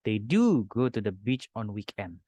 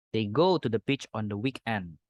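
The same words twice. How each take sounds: First: "do" hit as the first and strongest word, said slowly; stress on DO. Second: Said in the usual way. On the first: Shown as a demonstration. Teacher reads the wrong version with "do" stressed. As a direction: lean on "do" in the wrong sentence. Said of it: "Secara grammar ini tidak perlu". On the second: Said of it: "Tidak perlu pakai do".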